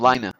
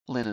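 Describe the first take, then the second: First: "Lina" as the settled pronunciation; "Lina", the version decided on. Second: "Lena" as first pronounced; "Lena", tried out quietly; pronunciation of Lena. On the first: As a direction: say "Lina" as the corrected name. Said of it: "Her name's Lina". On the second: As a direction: say "Lena" softly, as the first try. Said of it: "is how you pronounce it". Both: Shown as a demonstration.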